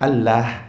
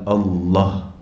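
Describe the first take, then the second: First: The L is pronounced thin and light. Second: The L is pronounced thick and heavy. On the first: The speaker calls it wrong. "Kenapa kita tak baca nipis?" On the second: The speaker calls it right. "Dibaca tafkhim maksudnya dibaca tebal"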